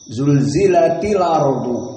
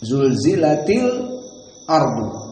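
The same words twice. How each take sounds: First: The words run together with no break before 'ardu'. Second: A brief silent catch comes just before 'ardu'. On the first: "qiraah Wars dengan apa? Dengan an-naql" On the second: "qiraah Hamzah dengan as-saqt"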